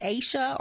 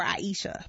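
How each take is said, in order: First: "Aisha" in two syllables, opening like the word "ace"; "Aisha" with a long A, then sha; two-syllable pronunciation. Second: "Aisha" in three syllables, opening like "eye"; "Aisha" with eye, then a long ee, then sha; three-syllable pronunciation. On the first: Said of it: "It's either pronounced Aisha or". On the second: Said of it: "but I think it's Aisha". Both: Shown as a demonstration.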